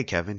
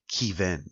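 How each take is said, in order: First: Said in the usual way. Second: Kevin said "KEE-vin"; long EE in the first syllable of Kevin; unusual name pronunciation. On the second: Acted. Man correcting someone on his name, long-EE pronunciation. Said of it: "it's pronounced Kevin".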